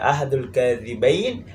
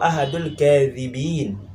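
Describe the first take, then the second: First: The last word ends with an 'ayn' sound. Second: The last word ends with an 'een' sound. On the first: It refers to one of two liars. "bisa dibaca sebagai musanna, tasniyah atau dua" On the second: It refers to one of many liars. "ataupun sebagai jamak yang banyak"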